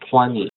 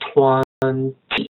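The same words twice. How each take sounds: First: The t sound after the n is dropped. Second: The t sound after the n is pronounced. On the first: "But there's no T sound. ... So the speaker will say twenty" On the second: "usually we say twenty"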